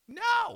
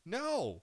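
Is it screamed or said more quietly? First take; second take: screamed; quieter. First: It is screamed loudly. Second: It is said more quietly.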